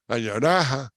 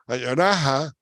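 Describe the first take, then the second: No difference in how they are said.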